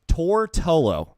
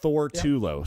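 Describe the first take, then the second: First: The name begins with a plain T sound. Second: The name begins with a TH sound. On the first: The speaker calls it right. "it's Tortullo" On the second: The speaker calls it wrong. "not Thortulo"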